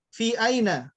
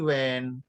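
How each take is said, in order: First: Two full words with every syllable pronounced. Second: One short contracted syllable replaces both words. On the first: "menggabungkan antara fi dengan aina" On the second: "dienakkan lagi jadi when"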